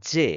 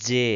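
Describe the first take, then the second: First: జే as a single long syllable; ఒత్తు లేకుండా. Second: జే pressed as a double జ్జే; ఒత్తి పలకడం. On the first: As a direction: say జే with one plain జ. (జేను ఒత్తకుండా పలకడం) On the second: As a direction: hold the జ before releasing జే. (జేను జ్జే అని ఒత్తి పలకడం) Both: Shown as a demonstration. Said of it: "ఒత్తి పలకాలి".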